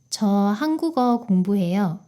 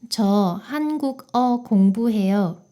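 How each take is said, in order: First: The final consonant links smoothly into the next syllable. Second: Each syllable is said separately and choppily. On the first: The speaker calls it right. "이게 훨씬 더 부드럽게 들리죠?" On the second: The speaker calls it wrong. "이것보다"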